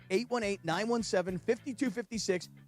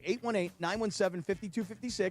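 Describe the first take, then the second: First: The number is said at a slower pace. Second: The number is said at a faster pace.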